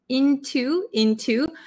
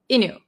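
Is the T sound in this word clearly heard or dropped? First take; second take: heard; dropped. First: The T sound is clearly pronounced. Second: The T sound is dropped in fast speech.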